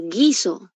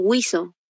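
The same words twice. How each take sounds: First: "guiso" said as ghee-so, hard G straight into I; silent U. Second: "guiso" said as gwee-so, with the U heard; U sounded. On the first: Teacher asking how she pronounces it, "guiso" as ghee-so. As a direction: leave the U out of "guiso". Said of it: "¿Cómo estoy pronunciando guiso?". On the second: Teacher showing what she is not saying, "guiso" as gwee-so. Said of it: "no estoy pronunciando guiso". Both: Shown as a demonstration.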